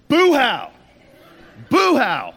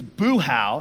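First: Loud, high-pitched re-enacted yell; retold outburst, much louder and higher; angry yelling. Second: Said in the usual way. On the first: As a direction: shout it out like an angry man on a bus. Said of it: "So I just start yelling on this bus". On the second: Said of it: "So I just start yelling".

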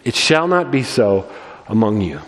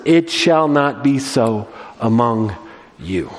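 First: Not hit, among you dropped low; repeated with emphasis on not; stress on not. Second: Slow, each word pressed; deliberate solemn stress; weighty emphasis. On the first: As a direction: lean on not and let it fall. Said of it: "we should highlight it". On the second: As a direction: lay it down slowly and firmly. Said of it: "we should highlight it, memorize it". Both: Shown as a demonstration.

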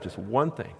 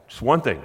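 First: Quieter repeat. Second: Said in the usual way. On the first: Shown as a demonstration. Preacher to congregation, restating the point, softer. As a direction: drop the repeat to a softer, settling close.

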